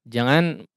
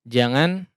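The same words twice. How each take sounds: No difference in how they are said.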